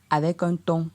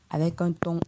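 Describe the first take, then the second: No difference in how they are said.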